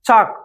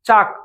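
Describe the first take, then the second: The two takes are said the same way.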